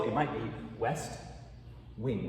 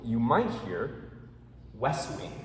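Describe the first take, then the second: First: "west wing" with a clear T; slow two-word "west wing". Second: "west wing" run together, T dropped. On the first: Teacher showing careful speech to students. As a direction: say each word apart, releasing the T. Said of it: "you say it slow". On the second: Teacher showing fast speech to students. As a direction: glide from "wes" straight into "wing". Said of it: "in the jungle". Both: Shown as a demonstration.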